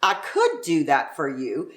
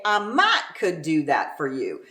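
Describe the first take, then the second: First: Said in the usual way. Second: Texan "might could" with "might" leaned on; might stressed. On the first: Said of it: "So instead of saying". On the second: Shown as a demonstration. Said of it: "they've got to say".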